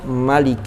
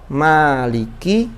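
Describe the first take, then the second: First: The first vowel is kept short. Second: The first vowel is held long.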